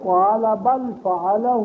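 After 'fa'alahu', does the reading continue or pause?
pause. It stops fully after 'fa'alahu'. Someone did it, and a new sentence begins. The speaker calls it right. "یہ عبارت اس طرح ہے"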